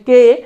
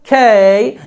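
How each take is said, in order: First: The k is plain, without a puff of air. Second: The k has a puff of air and is drawn out. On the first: The speaker calls it wrong. "আমরা কে উচ্চারণ করেছি এতদিন পর্যন্ত" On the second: The speaker calls it right. "এখন থেকে এটাকে বলবো খেই, একটু টান হবে"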